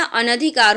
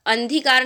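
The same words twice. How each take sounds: First: अनधिकार with an A after N, "a-na-dhi-kaar"; correct pronunciation. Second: अंधीकार run together as "an-dhee-kaar"; wrong pronunciation. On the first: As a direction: sound the separate NA in अनधिकार. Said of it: "अनधिकार होता है". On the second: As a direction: drop the vowel after N in अंधीकार. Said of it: "अंधीकार नहीं होता". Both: Shown as a demonstration.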